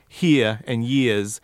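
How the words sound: The R sounds at the word ends are dropped. The speaker calls it wrong. "he's dropping those R's"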